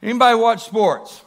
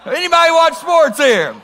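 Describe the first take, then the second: First: Said in the usual way. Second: High, loud appeal to the whole room; raised voice, pitched way up; incredulous calling out. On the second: Real, not acted. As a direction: call out in disbelief for a show of hands. Asks again after getting one hand.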